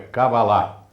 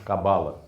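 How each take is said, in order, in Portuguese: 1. O acento cai na última sílaba. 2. O acento cai antes da última sílaba. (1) "Kabbalah é uma das oxítonas, então é Kabbalah" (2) "em português, nós falamos Kabbalah"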